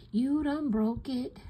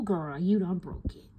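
First: "You done broke it" slower with YOU stressed and a bit higher; drawn-out scolding. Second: Said in the usual way. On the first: Real, not acted. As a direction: stretch it out and lean on "You".

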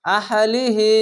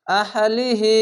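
Both takes have the same delivery.

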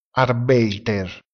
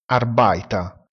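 First: Said in the usual way. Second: Arbeiter detto lento, EI come AI e finale in A; pronuncia tedesca. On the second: Shown as a demonstration. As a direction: Arbeiter scandito: ARBAITA. (Arbeiter con EI letto AI e R finale muta) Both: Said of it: "si pronuncia Arbeiter".

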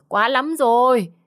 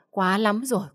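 First: High, loud, drawn-out cry of outrage; furious outburst. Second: First exclamation, held back; fuming. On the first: Mother fed up with defiant son, furious outburst. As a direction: stretch it into an angry yell. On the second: Mother fed up with defiant son, contained fuming. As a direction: seethe before the outburst. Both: A narrator's reading. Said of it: "Bà Tư nghe xong tức lắm".

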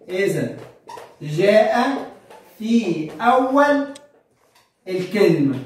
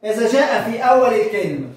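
First: إذا جاء في أول الكلمة, each word spaced with pauses; slow dictation, word by word. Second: Said in the usual way. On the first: Shown as a demonstration. Teacher dictates the rule to students, slow word by word. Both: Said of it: "ف إمتى؟".

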